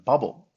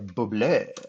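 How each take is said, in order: First: The ending is said as a plain English syllable. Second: The ending is said in a French-sounding way. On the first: The speaker calls it right. "we pronounce them bubble" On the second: The speaker calls it wrong. "we don't say bubble"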